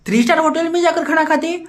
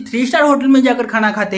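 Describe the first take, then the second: First: Higher, incredulous sneering repeat of "three star hotel"; scoffing "star" with a rising tone; mocking echo. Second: Said in the usual way. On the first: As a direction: throw his words back at him in disbelief.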